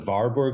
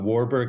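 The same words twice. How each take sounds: First: Warburg is pronounced the German way. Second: Warburg is pronounced the English way.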